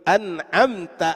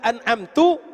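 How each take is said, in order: First: The word ends with an 'a' vowel. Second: The word ends with a 'u' vowel. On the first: You have given favor. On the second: I have given favor.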